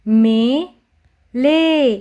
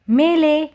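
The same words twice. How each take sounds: First: "मेले" split as मे... ले; "मेले" with both syllables held apart. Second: Said in the usual way. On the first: Shown as a demonstration. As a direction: sound out "मेले" very slowly in two parts. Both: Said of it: "उच्चारण करके पढ़ेंगे".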